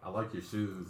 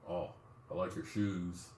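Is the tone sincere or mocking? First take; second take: sincere; mocking. First: It is said sincerely, with a flirty tone. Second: It is said jokingly, in a mocking tone.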